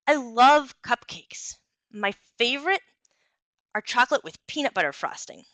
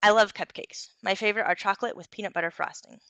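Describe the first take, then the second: First: Engaging, varied delivery. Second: Said in the usual way. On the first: Shown as a demonstration. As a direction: sell the cupcakes with varied pitch and pacing. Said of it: "the second one sounded more engaging". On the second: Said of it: "Let me read this sentence in two different ways".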